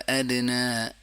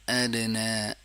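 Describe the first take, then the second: The two takes are said the same way.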